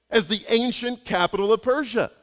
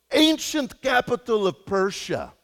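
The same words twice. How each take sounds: First: Said in the usual way. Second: Loosely imitated Croatian accent, slightly higher; a rough Croatian taxi driver accent, proud of knowing; made-up Croatian accent. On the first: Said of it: "So my shock". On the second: Pastor imitates the Croatian taxi driver's accent, naming Persia. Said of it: "I don't know how to do a Croatian accent".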